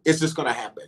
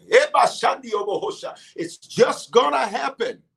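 First: Said in the usual way. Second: "just gonna happen" drawn out, pitched high; stretched-out, high-pitched insistence on "just gonna happen"; emphatic declaration. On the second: Acted. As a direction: declare "just gonna happen" slowly and higher, leaning on each word. Emphatic repeat voicing Jesus' words.

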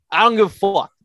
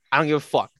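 First: Higher and louder, hitting "dont" hard; emphatic repeat. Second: Said in the usual way. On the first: Real, not acted. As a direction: punch it out the second time. Repeats line, second more forceful.

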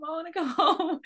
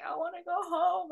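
First: Put-on higher, louder childlike whine melting into a laugh; repeating the homesick plea while laughing. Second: Put-on higher, plaintive childlike wail; child gazing at stars, wanting home; childish plea. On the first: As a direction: whine it again but giggle through it. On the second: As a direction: whine like a homesick kid. Child longing to leave Earth.

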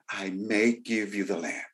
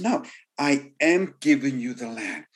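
First: "may" stressed, softer and lower; a doubtful "I may give you the land"; hesitant may. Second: "am" stressed firmly in "I am giving you"; firm promise. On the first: Preacher contrasts a wrong promise, soft stress on may. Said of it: "God wasn't saying". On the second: Preacher voices God's promise, firm stress on am. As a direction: make "am" a certain promise. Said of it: "He says". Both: Pretend.

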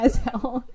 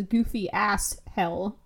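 First: Said in the usual way. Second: "goofy ass hell" read as written, with "ass" clear like the rude word; reading the typo. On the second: Shown as a demonstration. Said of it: "No, it says".

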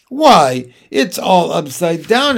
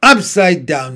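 First: Jane's surprised cry, "upside down" rising at the end; exclaiming. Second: An offended gentleman's snort, a bit louder, "Upside" pushed hard and falling. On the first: Jane spots the gentleman's odd ride, surprised exclaim. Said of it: "exclaimed Jane". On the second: Old gentleman offended by Jane, snorting indignantly. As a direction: scoff it back at her, indignant. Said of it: "he snorted". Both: A narrator's reading.

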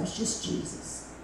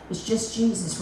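First: Breathless whispered echo. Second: Said in the usual way. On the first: Retold or imitated. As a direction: breathe it out tenderly. Repeated as a whisper.

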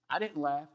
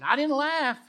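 First: Small, subdued denial; understated denial. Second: High, loud protest; frightened denial. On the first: Retold or imitated. Retold Sarah caught laughing by God, understated denial. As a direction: deny it meekly, without raising the voice. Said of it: "And Sarah's like". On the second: Acted. Sarah denies laughing to the Lord because she was afraid, high loud denial. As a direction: blurt out a defensive denial. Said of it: "Sarah denied it and said".

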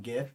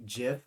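First: "gif" with a hard g; hard-g pronunciation. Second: "jif" with a soft j sound; soft-g pronunciation. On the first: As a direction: start "gif" like the word "gift". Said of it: "I'll say "jif" and "gif". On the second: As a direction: start "jif" like the word "jet". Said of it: "I'll say "jif". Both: Shown as a demonstration.

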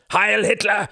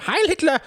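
First: Loud, much higher harsh shout; harsh cry. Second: Loud, very high, eager shout. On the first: A stranger calling out behind them, harsh loud shout. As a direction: bark the salute. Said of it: "cried a harsh voice behind them". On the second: Klaus answering the brown-shirts, loud shouted salute. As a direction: snap out the salute with full force. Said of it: "he shouted". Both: A narrator's reading.

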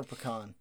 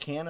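First: PECAN said "puh-KAHN", open ah ending; pecan with a long ah in the second syllable. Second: PECAN said "pee-CAN", short a as in cat; pecan with a cat-like second vowel. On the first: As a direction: rhyme the end of pecan with "lawn". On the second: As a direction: rhyme the end of pecan with "man". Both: Shown as a demonstration. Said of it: "It depends on how you say".

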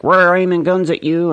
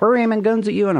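First: Loud, high threatening voice; mock Russia. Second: Even higher, loud threatening voice; mock China. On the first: Vlogger voicing Russia as a loud, high threatening bully. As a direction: bark it like a cartoon superpower. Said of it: "Russia's like". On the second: Vlogger voicing China, higher still and loud. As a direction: shout it up high like a cartoon rival. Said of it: "China's like".

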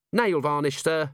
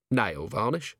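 First: High-voiced, prompt answer to a superior; eager junior officer. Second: Puzzled echo question. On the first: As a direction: answer up at once, high and matter-of-fact. Cheery answers her commander. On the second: Acted. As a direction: repeat it as a baffled question. Vimes echoes it, puzzled.

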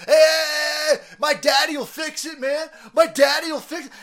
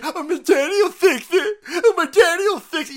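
First: High, loud spoiled-brat yell; bratty shout. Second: High, loud fake blubbering; mock crybaby. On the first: Acted. Spoiled son shouting that his father will fix it, high loud bratty yell. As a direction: holler it like a spoiled kid. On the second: Host mocking the son as a crybaby, high loud mock blubbering. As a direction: whine it like a sobbing toddler.

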